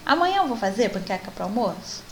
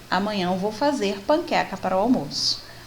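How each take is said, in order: First: It is asked as a question, rising at the end. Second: It is stated plainly, falling at the end.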